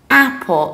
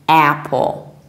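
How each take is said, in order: First: It is said in a British accent. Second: It is said in an American accent. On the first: "very broadly open mouth" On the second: "In the American accent, ... You open your mouth a little bit more"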